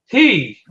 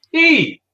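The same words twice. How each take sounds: First: "he" as a raised, falling call; questioned reading. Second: "he" with the E pitched very high, then falling; emphasis on the E. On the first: Host trying out a viewer's comment, "he" lifted and falling. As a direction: try out "he" with a lifted vowel. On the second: Host correcting how the comment reads, "he" with a high stressed E. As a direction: punch the E in "he", squeaking it high. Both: Shown as a demonstration. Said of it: "more emphasis on the E than the her".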